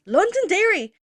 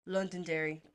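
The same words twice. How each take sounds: First: Loud, high outraged exclamation; pissed-off disbelief. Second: Said in the usual way. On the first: Retold or imitated. Seeing the name on the board, outraged. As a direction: blurt it out, scandalised. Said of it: "Now I'm pissed".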